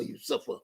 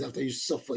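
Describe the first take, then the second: First: Whispered echo. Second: Said in the usual way. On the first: Real, not acted. Repeating the suffering, second take whispered.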